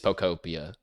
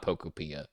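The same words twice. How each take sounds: First: It is pronounced to sound like Utopia. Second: It is pronounced unlike Utopia. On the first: The speaker calls it right. "it's supposed to be like Utopia" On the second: The speaker calls it wrong. "It's not Pokopia"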